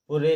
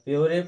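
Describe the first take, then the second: First: It has a plain oo and a final vowel. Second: It has a y glide and a final vowel. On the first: "वैसे तो पूरे लिखा है" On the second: "या प्योरे पढ़ते, तो नहीं"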